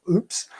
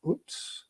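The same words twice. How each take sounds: First: Said in the usual way. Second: Whispered oops. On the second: Retold or imitated. Realising he'd upset the lead actor.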